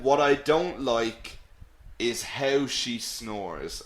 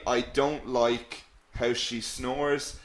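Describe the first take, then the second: First: "What I don't like" pushed forward, then a slow drop; emphatic DON'T LIKE. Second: Said in the usual way. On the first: Shown as a demonstration. Teacher showing how he added emphasis, emphatic stress on "don't like". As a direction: lean on "don't like", pause, then ease down. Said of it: "he added emphasis". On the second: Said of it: "he didn't just say".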